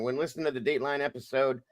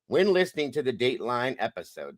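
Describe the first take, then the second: First: It is read at a normal, quicker pace. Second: It is read more slowly.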